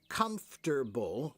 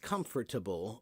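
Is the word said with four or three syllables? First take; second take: three; four. First: The word is said with three syllables. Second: The word is said with four syllables. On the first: "with three syllables" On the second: "with four"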